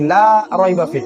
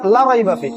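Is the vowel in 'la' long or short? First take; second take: long; short. First: The vowel in 'la' is drawn out long. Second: The vowel in 'la' is kept short. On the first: There is no doubt in the book. The speaker calls it right. "আমি লাই কিন্তু টান দিছি" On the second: There is surely doubt in the book. The speaker calls it wrong. "যে টান না দেই"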